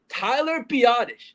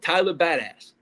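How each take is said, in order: First: The surname sounds like 'bee-oh-tish'. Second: The surname sounds like the word 'badass'. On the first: The speaker calls it right. "That's it. Tyler Biotish" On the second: The speaker calls it wrong. "His name is not ba- Tyler Badass"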